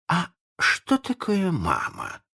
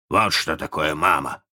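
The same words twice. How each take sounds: First: High, slow, naive question; puzzled pirate. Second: Explaining captain. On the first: Ignorant Smee asks what a mother is, puzzled. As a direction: ask it like a clueless simpleton. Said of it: "спросил неряха". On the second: Hook answers Smee's question about mothers, instructively. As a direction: point it out in your own register. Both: A narrator's reading.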